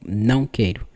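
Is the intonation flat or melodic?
flat. The phrase is said flat, with level pitch. "a gente fala muito raso, muito, muito frio, muito direito, assim"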